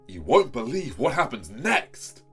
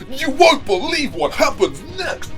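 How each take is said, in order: First: It is said in a flat, undramatic way. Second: It is said in an over-the-top, dramatic way.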